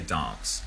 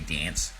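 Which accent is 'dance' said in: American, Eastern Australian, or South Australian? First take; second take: South Australian; American. First: It is said in a posh South Australian accent. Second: It is said in an American accent. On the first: "We say dance" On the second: "like in the United States, they'd say dance"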